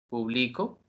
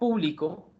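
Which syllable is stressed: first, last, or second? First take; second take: second; first. First: The stress is on the second syllable. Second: The stress is on the first syllable.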